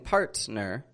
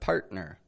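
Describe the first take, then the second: First: The T is a clear, fully released T. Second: The T is a glottal stop in the throat. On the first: The speaker calls it wrong. "I'm not saying partner" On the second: The speaker calls it right. "but partner"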